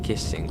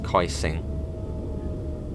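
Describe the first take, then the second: First: The first vowel is short, as in 'kiss'. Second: The first vowel is a diphthong, as in 'kite'. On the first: "if this was an English place, ... you would pronounce it Kissing" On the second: "I reckon it probably is Kaising. That sounds much more German"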